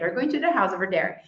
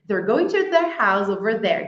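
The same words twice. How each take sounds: First: The sentence is spoken at a faster pace. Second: The sentence is spoken at a slower pace.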